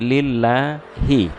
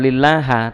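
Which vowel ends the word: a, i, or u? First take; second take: i; a. First: The word ends with an i vowel. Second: The word ends with an a vowel. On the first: The speaker calls it right. "tapi lillahi" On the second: The speaker calls it wrong. "atau lillaha"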